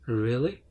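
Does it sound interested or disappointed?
disappointed. It sounds sad and disappointed.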